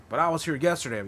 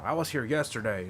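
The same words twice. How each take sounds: First: Higher and pushier, insisting; insistent. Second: Said in the usual way. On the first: Retold or imitated. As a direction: press the point, a touch indignant. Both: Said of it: "this one dude came up".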